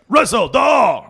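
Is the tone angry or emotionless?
angry. It is said with anger and rage.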